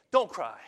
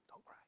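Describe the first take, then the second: First: "Don't cry" said loud and commanding; loud commanding take; firm loud don't cry. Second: "Don't cry" said soft and short, tender; soft comforting take; gentle don't cry. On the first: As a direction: punch out "Don't cry" as an order. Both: Shown as a demonstration. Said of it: "I don't know how he talks here".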